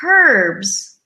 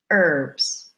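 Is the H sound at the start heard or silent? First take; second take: heard; silent. First: The word begins with an audible H sound. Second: The word begins without any H sound. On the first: The speaker calls it wrong. "We don't say herbs" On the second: The speaker calls it right. "we say herbs because the H is silent"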